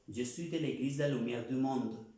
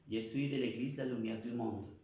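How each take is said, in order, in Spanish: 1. El tono sube y baja a lo largo de la oración. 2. El tono se mantiene nivelado, sin subidas ni bajadas. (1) "La idea no es hablar así" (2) "es totalmente como esta varita. No hay ni sube ni baja"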